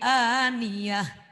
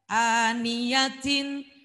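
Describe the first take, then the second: First: The word ends with a soft h sound. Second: The word ends with a t sound plus vowel. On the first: The reading stops at the end of the sentence. "jadi aniyah" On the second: The reading continues without stopping. "tidak dibaca asli"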